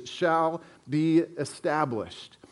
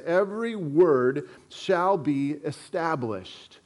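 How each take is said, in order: First: Slow, stress on be; slow emphatic repeat. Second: Every word weighed slowly; slow emphatic reading. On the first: Pastor tells notetakers to underline phrase, slow emphasis. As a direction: lean on shall be established. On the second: Pastor reads scripture to congregation, slow and weighty. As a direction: read it slow and deliberate. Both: Shown as a demonstration. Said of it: "underline that last phrase".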